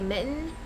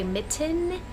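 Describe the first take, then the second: First: The word is said in a local pronunciation. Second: The word is said in a standard pronunciation. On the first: This is how the speaker naturally says the word. The speaker calls it wrong. "but I say mitten" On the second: This is how others expect the word to be said. The speaker calls it right. "apparently I'm supposed to say mitten"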